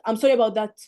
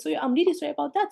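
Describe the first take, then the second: First: Mock flat sorry, a bit louder; insincere sorry. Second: Gently sincere, a little higher; sincere apology demo. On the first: Tutor mocks a careless apology, half-hearted. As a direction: toss off the apology without meaning it. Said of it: "This is not sorry". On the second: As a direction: say sorry like you mean it. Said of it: "Use this". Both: Shown as a demonstration.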